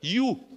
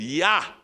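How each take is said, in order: First: The word ends with a rounded 'oo' vowel. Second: The word ends with an open 'ah' vowel. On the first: This is the regional dialect form. "E eles não dizem ja. Eles dizem" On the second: This is the standard German form. "a palavra sim em alemão se pronuncia dizendo ja"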